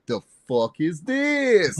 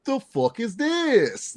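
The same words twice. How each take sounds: First: Slow, much higher, drawn-out "The fuck is this?"; Romeo's version. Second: Much higher, slow, drawn-out "The fuck is this?"; friend's high mocking take on the catchphrase; Romeo's version. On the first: Retold or imitated. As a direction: mimic a friend dragging out the catchphrase. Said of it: "Romeo sometimes ... when he's like". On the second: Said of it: "He goes".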